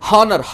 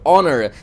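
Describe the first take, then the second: First: The word begins with an h sound. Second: The word begins directly with a vowel. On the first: The speaker calls it wrong. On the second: The speaker calls it right.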